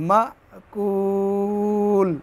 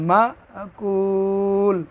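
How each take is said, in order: The two takes are said the same way.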